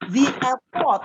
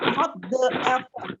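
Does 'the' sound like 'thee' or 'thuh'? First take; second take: thee; thuh. First: The word 'the' sounds like 'thee'. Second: The word 'the' sounds like 'thuh'. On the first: The speaker calls it right. "We have to pronounce it with the" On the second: The speaker calls it wrong. "not the"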